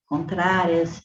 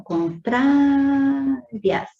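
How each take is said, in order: First: Said in the usual way. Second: "contrárias" with TRÁ held long and high; strong penultimate syllable. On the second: Shown as a demonstration. Teacher showing students a paroxytone, TRÁ of "contrárias" drawn out high. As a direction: call out "contrárias", stretching TRÁ far out before "rias". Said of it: "tem a penúltima sílaba mais forte".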